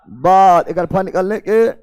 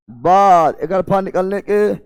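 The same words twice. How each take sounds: The two takes are said the same way.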